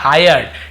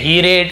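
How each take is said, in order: First: The first vowel sounds like 'eye'. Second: The first vowel sounds like 'ee'. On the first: The speaker calls it right. "आयर ऐसे उसका उच्चारण हायर्ड" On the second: The speaker calls it wrong. "हीरेड नहीं पढ़ेंगे"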